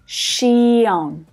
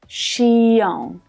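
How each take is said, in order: First: The ending is split into two full syllables. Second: The ending is split into two full syllables.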